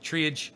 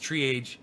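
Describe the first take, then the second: No difference in how they are said.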